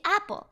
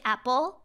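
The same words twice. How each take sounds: First: The stress is on the first syllable. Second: The stress is not on the first syllable. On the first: The speaker calls it right. "We say apple, and we know that the accent is on a" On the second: The speaker calls it wrong. "We don't say apple"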